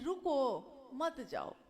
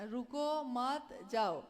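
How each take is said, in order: First: The pause comes right after रुको. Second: The pause comes right after मत.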